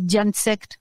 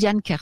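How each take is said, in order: First: The second part begins with an S sound. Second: The second part begins with a K sound. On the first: "sinon c'est Diane Sect, hein, si vous préférez" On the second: "ça se prononce Diane Kert"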